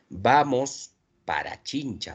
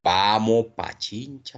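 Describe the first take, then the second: First: Every sound is pronounced in full. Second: The s and the ra sounds are dropped. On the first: This is the standard form. "Así debería ser la pronunciación" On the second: This is typical coastal speech. "aquí se obvia el sonido S y aquí el sonido Ra"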